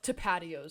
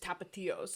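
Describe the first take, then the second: First: It is said with flat English-style vowels. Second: It is said with crisp Spanish-style vowels. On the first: The speaker calls it wrong. "He would call it tapatios sauce" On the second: The speaker calls it right. "so you like enunciate it more"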